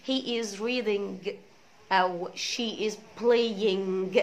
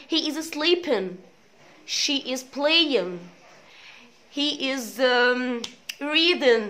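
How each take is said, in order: First: Reading and playing with a hard g sounded; wrong g ending. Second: Sleeping, playing, reading, with the g silent; no final g. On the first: Teacher mocking the wrong ng-g ending. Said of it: "ما ينفعش طبعًا". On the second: Teacher modeling silent g in -ing words. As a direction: leave the g off playing. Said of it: "علق الجي". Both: Shown as a demonstration.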